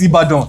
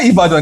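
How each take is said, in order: First: The name has its plain Nigerian pronunciation. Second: The name has an anglicized, foreign-sounding pronunciation. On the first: This is how everyone at home says it. The speaker calls it right. "It's Ibadan. We all know it" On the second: The speaker is putting on a foreign way of saying it. The speaker calls it wrong. "There's no Ibadan"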